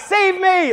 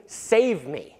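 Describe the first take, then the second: First: Much higher, louder cry of save me; desperate crowd yelling save me; shouting for help. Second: Said in the usual way. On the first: Retold or imitated. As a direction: call out save me like a crowd in danger. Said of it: "they're shouting out". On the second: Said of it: "It means".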